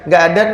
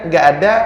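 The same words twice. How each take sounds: The two takes are said the same way.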